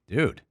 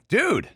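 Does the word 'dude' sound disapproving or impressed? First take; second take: disapproving; impressed. First: It sounds disapproving and reproachful. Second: It sounds impressed and approving. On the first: Someone did something questionable. "when someone does something questionable... So it's a negative" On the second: Someone did something great. "Like when someone does something great"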